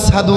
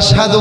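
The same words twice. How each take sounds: First: The word is pronounced with a changed, stiff-tongued sound. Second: The word is pronounced clearly and fully. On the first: An injured tongue could not form the sound. "আশহাদু বলতেন" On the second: This is the proper pronunciation. "Belal আশহাদু বলতে পারতেন না"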